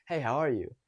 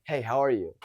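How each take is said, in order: First: Easy, friendly greeting. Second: Mildly confrontational greeting; negative. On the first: Coach demonstrates approaching a girl, friendly. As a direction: greet with good energy. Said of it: "that's already coming in friendly". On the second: Coach imitates how many guys approach, negative. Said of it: "and it's, it's negative". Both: Shown as a demonstration.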